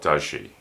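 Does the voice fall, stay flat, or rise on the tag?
flat. The pitch stays level at the end. The speaker may or may not know the answer. "the intonation is flat"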